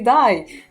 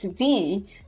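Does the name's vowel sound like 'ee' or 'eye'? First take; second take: eye; ee. First: The name is said with an 'eye' vowel. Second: The name is said with an 'ee' vowel. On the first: The speaker calls it wrong. "sometimes I get people st- calling me die" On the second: The speaker calls it right. "that I is E. That's why it's D"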